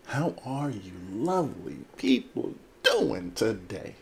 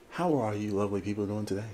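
First: Slow, drawn-out hammed-up welcome; theatrical greeting. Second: Said in the usual way. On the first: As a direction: stretch every word with showy swoops. Same greeting repeated, drawn out theatrically.

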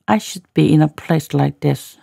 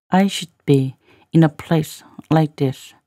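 First: Said in the usual way. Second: Slow phrase-by-phrase reading; slow, in chunks. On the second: Shown as a demonstration. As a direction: leave clear gaps so learners can follow. Teacher repeats line in slow chunks.

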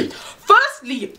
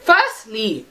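First: Sharp, high, squaring up; confrontational. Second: Said in the usual way. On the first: Pretend. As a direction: call her out to her face. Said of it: "So that's what I would have said". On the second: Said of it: "this is what I would have said to her".

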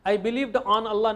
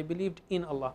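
First: "on" leaned on, the whole line drawn out slowly; slow, deliberate "I believed on Allah" with weight on "on"; wrong form stressed. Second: Said in the usual way. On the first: Shown as a demonstration. Teacher to students, showing the wrong preposition, slow with "on" stressed. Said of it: "नहीं कहेंगे हम उर्दू का तर्जुमा करते हुए". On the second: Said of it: "नहीं बोलेंगे".

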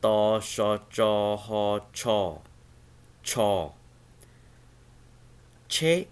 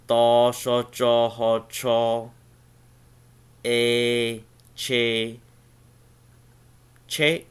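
First: "Ta, sha, cha, ha, cha, cha. Che." sounded out one by one, at normal volume; plain syllable run. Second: "ta, sha, cha, ha, cha, a, che, che" called out louder, each syllable punched; louder syllable drill. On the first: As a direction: read each Hmong syllable slowly and clearly, then "Che". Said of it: "you sound like this". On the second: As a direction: drill the Hmong syllables out loud for the class. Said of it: "Che is the word for car". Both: Shown as a demonstration.

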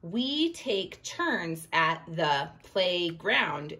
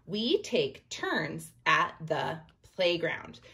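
First: Slow, evenly spaced words; word-by-word demo. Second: Slow, steady read with each word separated. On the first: Teacher showing how each spoken word gets one point, slow. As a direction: tap out each word as you say it. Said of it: "And if I went". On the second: Teacher rereading the line so each word gets one point, slow. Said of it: "And as I'm talking". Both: Shown as a demonstration.

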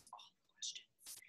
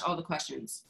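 First: Slow breathy whisper under the breath; whispered aside. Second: Said in the usual way. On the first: Shown as a demonstration. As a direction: whisper it to yourself, slowly.

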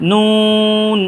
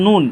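First: নুন with a long, level "oo", higher; drawn three counts. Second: Said in the usual way. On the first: Shown as a demonstration. Teacher models a letter for learners, drawn long. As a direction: hold the vowel of নুন on one note. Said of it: "তিন আলিফ টেনে". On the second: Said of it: "এই হরফটার নাম হচ্ছে".

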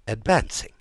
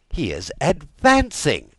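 First: Rising incredulous echo; disbelieving question. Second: Loud falling outburst on advancing; alarmed exclamation. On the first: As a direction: ask it back in disbelief. King repeats news in disbelief. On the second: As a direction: declare it in shocked alarm. King repeats news with alarm. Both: Acted.

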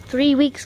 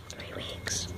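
First: Said in the usual way. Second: Hushed whisper, almost no voice; barely audible whispered repeat. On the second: Real, not acted. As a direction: whisper it for emphasis.

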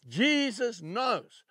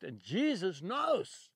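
First: Jesus knows, drawn out slowly, a little louder and higher; slow stress on Jesus knows. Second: Said in the usual way. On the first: Shown as a demonstration. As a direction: lean on Jesus and let knows land slowly. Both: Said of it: "Just remember those two words".

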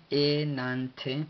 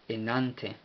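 First: "enante" sounded out very slowly, pitched up; "enante" in drawn-out pieces, rising at the end; syllable by syllable. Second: Said in the usual way. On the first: Shown as a demonstration. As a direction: stretch "enante" into e, nan, te. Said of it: "y finaliza con una T". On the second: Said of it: "lo cual significa".

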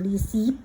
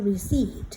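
First: "receipt" mispronounced with its silent p sounded; wrong pronunciation. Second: "receipt" with the p silent, like re-SEET; correct pronunciation. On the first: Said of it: "ไม่ใช่นะ มันอ่านว่า receipt". (อ่าน "receipt" ผิด โดยออกเสียงตัว p) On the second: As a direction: model "receipt" correctly, no p sound. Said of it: "มันอ่านว่า receipt". (อ่าน "receipt" ให้ถูก ไม่ออกเสียงตัว p) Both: Shown as a demonstration.

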